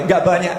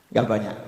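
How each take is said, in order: First: Said in the usual way. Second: Nggak banyak echoed low and soft, ironic; dry ironic echo. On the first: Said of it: "setiap hari saya cuma baca". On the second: Shown as a demonstration. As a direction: let the irony sink in quietly. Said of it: "Ada yang sanggup nyontoh?". (gema ironis, pelan dan rendah)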